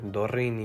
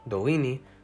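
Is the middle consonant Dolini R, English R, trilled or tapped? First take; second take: trilled; Dolini R. First: The middle consonant is a trilled R. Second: The middle consonant is the native Dolini R. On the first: The speaker calls it wrong. "nor is it trilled" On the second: The speaker calls it right. "when I'm pronouncing the name of the language"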